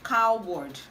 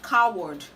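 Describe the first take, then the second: No difference in how they are said.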